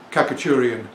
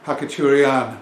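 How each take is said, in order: First: Kakaturian with a hard K, stress on TUR; the common English Kakaturian; English-world Khachaturian. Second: Hakaturian with a breathy H, stress on the last syllable; Hakaturian, lean on the end; Russian Khachaturian. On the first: Shown as a demonstration. Record seller showing the common way, Kakaturian with a hard K. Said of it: "most people say". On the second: Retold or imitated. Russian wife correcting him, Hakaturian stressed at the end. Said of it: "so with stress on the last syllable".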